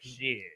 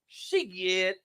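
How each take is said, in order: First: It is said the way a white boy says it. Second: It is said the way people say it in the hood.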